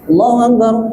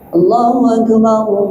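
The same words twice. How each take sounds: First: It is said hastily and sloppily. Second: It is said slowly and carefully.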